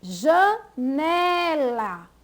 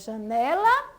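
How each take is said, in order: First: Janela very slowly by syllables, long emphatic ne; stress on NE. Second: Said in the usual way. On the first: Shown as a demonstration. Teacher showing the more intense syllable, slow Janela stressed on ne. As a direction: break up Janela and stretch ne. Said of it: "pronunciada com mais intensidade". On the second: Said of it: "elas são pronunciadas com mais força".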